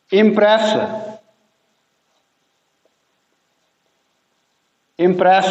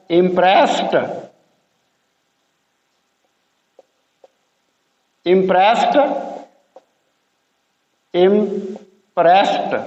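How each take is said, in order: First: Said in the usual way. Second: इम्प्रेस्ड ending in a t, impresst. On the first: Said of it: "S वाला word". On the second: Shown as a demonstration. Teacher contrasting इम्प्रेस्ड with the base verb for learners. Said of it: "यहाँ पे टी की आवाज़ बन गई".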